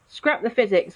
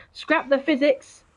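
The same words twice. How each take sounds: First: Said in the usual way. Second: Laughing, slow. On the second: Real, not acted.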